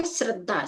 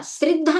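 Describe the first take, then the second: First: "श्रद्धा" with short a after sr; correct pronunciation. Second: "श्रद्धा" mispronounced with i after sr; wrong pronunciation. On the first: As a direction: say "श्रद्धा" as srad-dhaa. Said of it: "इसका उच्चारण होता है". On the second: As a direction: say "श्रद्धा" as srid-dhaa. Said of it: "श्रद्धा नहीं होता". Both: Shown as a demonstration.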